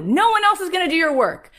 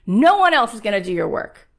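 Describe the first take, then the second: First: High and loud, hammering it home; loud insistent take. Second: Said in the usual way. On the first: Retold or imitated. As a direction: shout it the first time. Repeated, first take.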